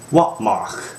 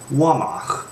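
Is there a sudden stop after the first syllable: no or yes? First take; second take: yes; no. First: A sudden stop follows the first syllable. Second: The first syllable flows on without a stop. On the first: It means ten. The speaker calls it right. "notice the sudden stop of the wa" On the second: It doesn't really mean anything. The speaker calls it wrong. "If I were to remove the apostrophe, we would get the false word"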